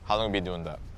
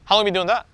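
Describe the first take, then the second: First: The voice does not rise at the end. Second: The voice rises at the end. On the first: The question sounds less curious. The speaker calls it wrong. "Instead of saying" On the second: The question sounds curious. The speaker calls it right. "upward inflection"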